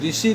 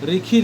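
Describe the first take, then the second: First: The middle consonant is an 'sh' sound. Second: The middle consonant is a 'kh' sound.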